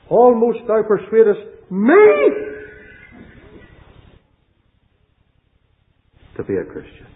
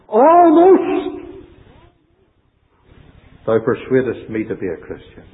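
First: The stress is on "me". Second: The stress is on "almost".

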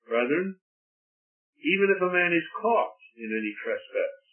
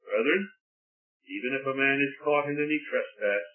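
First: It is read with strong, deliberate emphasis. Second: It is read plainly, without marked emphasis.

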